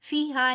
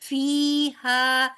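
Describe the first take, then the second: First: The first vowel is cut short. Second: The first vowel is held long. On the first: The speaker calls it wrong. "फीहा नहीं बोलना" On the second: The speaker calls it right. "याय मद्दा है तो फा जो है दो हरकत लंबा बराबर होगा।"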